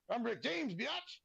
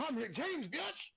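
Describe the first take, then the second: First: High, cocky catchphrase with biatch squealed up top. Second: High swaggering shout of the line, biatch shooting way up. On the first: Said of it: "Have you ever heard the saying". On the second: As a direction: repeat the catchphrase even higher for the crowd. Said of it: "I said". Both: Retold or imitated.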